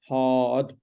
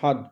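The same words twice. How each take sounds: First: The vowel in the word is long. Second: The vowel in the word is short. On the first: The speaker calls it right. "it's a long vowel" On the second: The speaker calls it wrong. "not hard"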